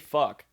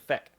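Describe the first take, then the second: First: The vowel sounds like 'uh'. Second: The vowel sounds like 'eh'. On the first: "you say fuck" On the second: "you pronounce the U as an e. ... it comes out as feck"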